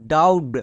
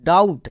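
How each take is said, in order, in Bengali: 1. শব্দটি 'b' ধ্বনি সহ উচ্চারিত হয়। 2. শব্দটি 'b' ধ্বনি ছাড়া উচ্চারিত হয়। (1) "একে অনেকে ভুল করে ডাউট এরকম উচ্চারণ করে" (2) "এখানে বি এর উচ্চারণ হবে না"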